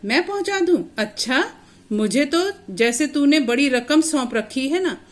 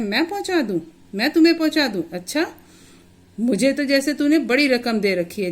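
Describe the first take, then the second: First: Higher and louder, a mocking scolding retort; scolding sarcasm. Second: Higher and louder, a twisted sneering taunt; sneering sarcasm. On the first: Uncle Sudama taunts the injured boy, sarcastic and scolding. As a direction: sneer it back at him like a grumpy uncle. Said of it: "Sudama उसे डांट रहा है". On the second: Acted. Uncle Sudama sneers at the injured boy, scornful sarcasm. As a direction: twist every word into a mocking jab. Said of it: "बहुत ही मतलब ऐंठ कर उसको बोलता है".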